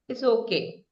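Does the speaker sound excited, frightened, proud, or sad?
sad. The voice sounds sad and downcast. The speaker is disappointed but accepts it. "You say it in a sad tone"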